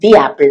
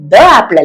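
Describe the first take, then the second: First: 'The' has the long vowel, like 'thee'. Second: 'The' has the short weak vowel, like 'thuh'. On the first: The speaker calls it right. "the apple എന്ന് പറയണം" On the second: The speaker calls it wrong. "the apple അല്ല"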